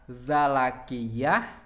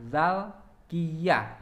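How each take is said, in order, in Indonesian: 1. Ada vokal setelah bunyi l. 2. Tidak ada vokal setelah bunyi l. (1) "bi fathil lami" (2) "wa sukuniha"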